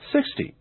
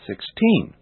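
First: "sixty" with SIX stressed, short ending; stress on first syllable. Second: Put-on "sixteen" with TEEN stressed; stress on last syllable. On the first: Teacher showing which syllable is stressed, "sixty" stressed on SIX. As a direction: put the weight on SIX in "sixty". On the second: Teacher showing which syllable is stressed, "sixteen" stressed on TEEN. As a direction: lean on the second syllable of "sixteen". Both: Shown as a demonstration. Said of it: "notice the different syllables being stressed".

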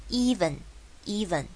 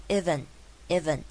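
First: EVEN slowly, with a long "ee"; 长母音E. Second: EVEN with a short first vowel, "ivven"; 短母音. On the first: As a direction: stretch the first vowel of "even": eeven. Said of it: "even这边是长母音E". (even的E念成长母音，放慢) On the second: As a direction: say "even" wrongly with a short, lax i. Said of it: "请不要念even". (even的E错念成短母音) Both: Shown as a demonstration.

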